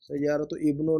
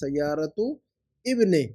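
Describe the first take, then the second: First: The last word ends with an 'u' vowel. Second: The last word ends with an 'i' vowel. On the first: The speaker calls it wrong. "नहीं" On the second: The speaker calls it right. "बल्कि"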